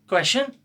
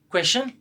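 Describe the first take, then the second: No difference in how they are said.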